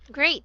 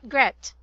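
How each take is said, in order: First: The vowel is a long 'ay' sound. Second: The vowel is a short 'eh' sound. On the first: The speaker calls it right. "Great, not gret" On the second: The speaker calls it wrong. "not gret"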